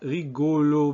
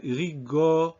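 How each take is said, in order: First: Rigolo with both o's tight and rounded; wrong closed O. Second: Rigo with a short open o; slow rigo, second vowel relaxed toward aw; correct open O. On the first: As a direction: mispronounce rigolo with a closed middle O. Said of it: "it's not rigolo". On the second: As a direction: cut off at rigo, showing the open O. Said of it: "first O is in an unstressed position". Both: Shown as a demonstration.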